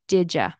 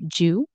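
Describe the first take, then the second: First: The D stays separate and you becomes ya. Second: It is reduced to one syllable, jew. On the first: "It also can turn into did ya"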